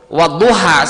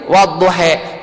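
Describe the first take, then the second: First: The final vowel is an open a sound. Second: The final vowel is tilted toward e. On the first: This is the widely used reading. "Wadduha saja dibacanya" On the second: This is a less common reading. "Kalau yang lain wadduhe"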